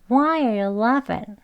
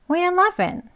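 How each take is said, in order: First: It is said slowly with every word clear. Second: It is said fast with the first words blended. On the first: "우선 천천히 한번 해볼게요" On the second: "이걸 빨리 발음을 하게 되면"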